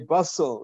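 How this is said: The name is said with an English pronunciation. "I pronounce it the English way"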